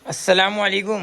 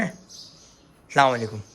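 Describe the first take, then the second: First: Higher-pitched "अस्सलाम वालेकुम"; raised, insistent greeting. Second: Drawn-out, lower-pitched "अस्सलाम वालेकुम"; slow, low greeting. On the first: Uncle prompting child to answer salaam, raised pitch. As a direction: repeat the greeting up high, prompting a reply. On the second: Uncle saying salaam to child, slow and low. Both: Real, not acted.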